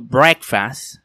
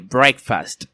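First: The final T sound is dropped. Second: The final T sound is pronounced. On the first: The speaker calls it wrong. "los hispanos podemos decir ... breakfast" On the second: The speaker calls it right. "en lugar de breakfast"

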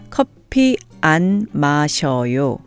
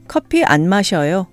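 First: It is said slowly and carefully. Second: It is said at a natural speed. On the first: "I'll say the negative sentence slowly first" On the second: "and then at a more natural speed"

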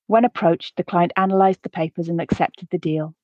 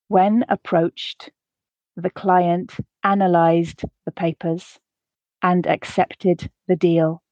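First: The sentence is read at a natural pace. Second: The sentence is read slowly. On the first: "the second time at a more natural pace" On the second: "the first time slowly to allow you to grasp the words"

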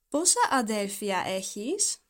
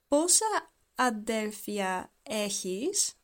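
First: The question is spoken at normal speed. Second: The question is spoken very slowly. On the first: "but in a normal pace" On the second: "we're gonna speak very slow"

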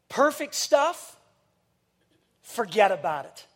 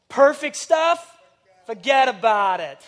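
First: It is said plainly, words kept separate. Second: It is slurred together in a New York accent.

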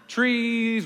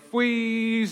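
First: The word begins with a clear tr sound. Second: The word begins with an fw sound. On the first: The speaker calls it right. "I also had trouble with my T's and my R's" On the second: The speaker calls it wrong. "trees were fwees"

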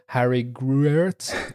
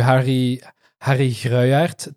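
First: The name is said with an English pronunciation. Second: The name is said with its native pronunciation. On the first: "to say it in English" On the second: "to pronounce it properly"

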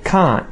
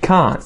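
No difference in how they are said.

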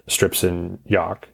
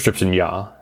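First: The final consonant sound is pronounced. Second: The final consonant sound is dropped. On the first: The speaker calls it wrong. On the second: The speaker calls it right.

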